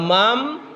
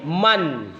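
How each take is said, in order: First: The word ends with an m sound. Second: The word ends with a clear n sound. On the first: The speaker calls it wrong. "bukan mam" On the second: The speaker calls it right. "tapi man. Ya, nun mati itu harus jelas"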